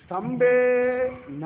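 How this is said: A short pause comes before the final syllable. He is not seen in the pillar. "ஒரு சின்ன ஒரு pass"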